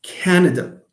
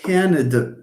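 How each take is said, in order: First: "Canada" said with a weak schwa in the middle syllable; Canada with reduced vowel. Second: "Canada" said with a full A in the middle syllable; full-vowel Canada. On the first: Teacher demonstrating to students, Canada with a schwa. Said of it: "The same thing for Canada". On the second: Teacher showing students the wrong way, full-vowel Canada. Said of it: "It's not Canada". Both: Shown as a demonstration.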